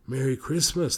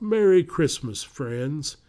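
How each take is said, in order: First: Said in the usual way. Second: Christmas elf. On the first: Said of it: "the boys answered". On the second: A narrator's reading. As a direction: greet them like a jolly elf. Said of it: "said the tall elf".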